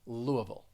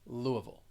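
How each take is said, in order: No difference in how they are said.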